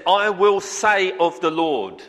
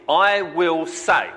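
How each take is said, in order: First: Said in the usual way. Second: "I will say." drawn out very slowly, each word weighted; slow, deliberate stress on "I will say"; emphasis on I will say. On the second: Shown as a demonstration. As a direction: lean hard on "I will say", word by word. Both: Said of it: "There's an emphasis, I believe, right here".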